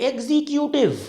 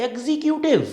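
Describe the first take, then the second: The two takes are said the same way.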